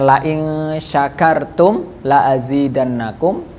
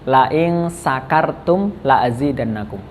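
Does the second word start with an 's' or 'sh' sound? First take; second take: sh; s. First: The second word starts with an 'sh' sound. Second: The second word starts with an 's' sound. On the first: If you are grateful, I will increase my favor. The speaker calls it right. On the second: If you are drunk, I will increase my favor. The speaker calls it wrong. "huruf sya itu dirubah menjadi sa"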